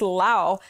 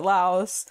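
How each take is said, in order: First: The name ends without an s sound. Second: The name ends with an s sound. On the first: This is how it is said locally. The speaker calls it right. "I'm pretty sure it's pronounced Lao" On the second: This is how Americans say it. The speaker calls it wrong. "Americans pronounce it Laos"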